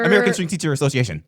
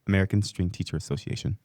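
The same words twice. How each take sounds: First: It is said at normal speed. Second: It is said a little more slowly.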